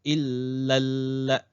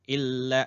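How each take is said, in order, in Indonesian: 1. Bunyi L ditahan panjang, digandakan. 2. Bunyi L pendek, tidak digandakan. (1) "jangan lupa ada tanda sabdu. Seolah-olah ada dua lam" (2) "kadang-kadang illa. Nah, itu yang salah tuh"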